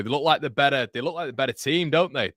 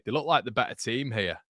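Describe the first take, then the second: First: Higher and louder, lifting with the pressure; commentator's voice climbing with the attack; rising excitement. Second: Said in the usual way. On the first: Real, not acted. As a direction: build it up as the home side pushes.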